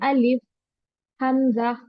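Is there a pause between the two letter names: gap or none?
gap. There is a gap between the two names. The speaker calls it wrong. "ऐसे नहीं पढ़ेंगे"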